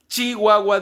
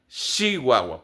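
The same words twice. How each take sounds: First: The first sound is a sharp ch sound. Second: The first sound is a soft sh sound. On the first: "en vez de decir Chihuahua" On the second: "dicen Chihuahua, porque ahí se pronuncia la che de esa manera"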